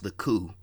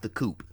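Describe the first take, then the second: First: The name ends without any P sound. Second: The name ends with a clear P sound. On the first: The speaker calls it right. "it's pronounced the Coup" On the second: The speaker calls it wrong. "not the Coop"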